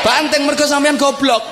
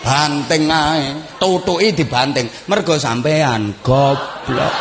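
First: High-pitched outburst; mock furious shout. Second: Drawn-out words at half speed; slow mocking scold. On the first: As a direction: yell it as a comic scolding. Mock outburst at broken radio owner. (bentakan marah pura-pura) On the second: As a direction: stretch the insult out lazily. Same scolding, drawn out slowly. (omelan mengejek pelan dan diulur)

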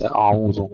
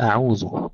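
First: أعوذ thickened, dark vowels throughout; wrongly heavy. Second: أعوذ with thin hamza, ayn and dhal; all letters light. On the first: Teacher showing what to avoid, heavy letters. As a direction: make the whole of أعوذ full and dark. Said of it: "ليس أعوذ مثلًا". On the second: Teacher modelling for students, thin light letters. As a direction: keep the whole of أعوذ light. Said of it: "نرقق الكلمة كلها". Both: Shown as a demonstration.

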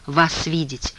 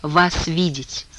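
First: Weak, slurred, barely getting it out; struggling to shape the words; barely moving tongue. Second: Very slow, each word dragged out; slow slurred repeat. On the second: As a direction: repeat it slowly through a heavy tongue. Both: A narrator's reading. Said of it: "Еле ворочая языком".

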